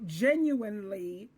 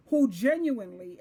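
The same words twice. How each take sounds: First: Genuinely drawn out slowly, lifting at the end; stress on genuinely. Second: Said in the usual way. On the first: Shown as a demonstration. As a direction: give genuinely slow, deliberate emphasis. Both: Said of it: "I'm gonna put emphasis on that word".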